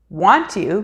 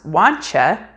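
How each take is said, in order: First: The word 'you' is said fully and separately. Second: The word 'you' is reduced to a 'cha' sound.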